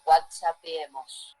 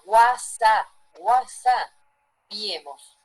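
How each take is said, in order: First: Said in the usual way. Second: Whatsapp, whatsappiemos, más fuerte y muy lento; slow dialect demo. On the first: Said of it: "Entonces decimos, no decimos". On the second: Shown as a demonstration. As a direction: separa whatsapp y whatsappiemos, alargando y subiendo el volumen. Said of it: "¿Lo escucharon o no?". (whatsapp, whatsappiemos pronunciado lento y fuerte, como modelo)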